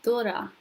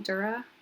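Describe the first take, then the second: First: The D is soft, close to a th sound. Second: The D is a hard English-style D. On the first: The speaker calls it right. "So instead, you can say" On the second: The speaker calls it wrong. "I'm saying it on purpose as a gringo"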